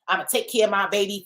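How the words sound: It is said distastefully, with animosity.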